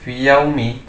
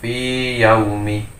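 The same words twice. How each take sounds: First: The vowel of 'fi' is short, merged into y. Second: The vowel of 'fi' is held long. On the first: The speaker calls it wrong. "tidak boleh fi yaumi" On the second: The speaker calls it right. "tapi dibaca panjang, tetap fi yaumi"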